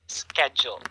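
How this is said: The word begins with an s sound. "the American pronunciation is schedule"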